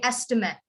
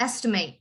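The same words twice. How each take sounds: First: "estimate" falling to a short "mit"; front-stressed "estimate" with a weak last syllable; noun pronunciation. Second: "estimate" with a full "mate" ending; verb stress. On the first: Teacher saying it as a noun, short ending. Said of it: "the first part is a noun". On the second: Teacher correcting to the verb, emphasized ending. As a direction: sound out a long "ate" at the end of "estimate". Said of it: "you would emphasize the end". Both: Shown as a demonstration.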